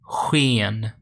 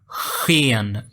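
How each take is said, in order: First: The first consonant sound is very soft. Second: The first consonant sound is strongly exaggerated. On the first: "the actual sound is sken, sken. So it's very soft" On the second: "I'm exaggerating"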